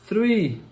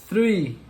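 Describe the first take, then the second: Both takes have the same delivery.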